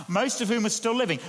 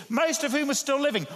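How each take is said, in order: First: Said in the usual way. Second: "most" lifted high, the whole line raised in pitch; preacher hammers home that "most" witnesses still live; stress on most. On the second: Shown as a demonstration. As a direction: lean hard on "most" to press the point. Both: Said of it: "What are we being told by that?".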